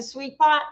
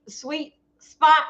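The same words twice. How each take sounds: First: "Pot" said without its opening s sound; slip of the tongue. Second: Said in the usual way. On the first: Real, not acted. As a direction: say "Pot" where Spot is meant.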